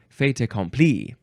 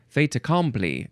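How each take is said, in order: First: The syllable 'com' is not stressed. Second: The syllable 'com' carries the stress.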